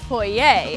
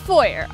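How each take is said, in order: First: The word is said in a fancy, refined way. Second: The word is said in a plain, everyday way.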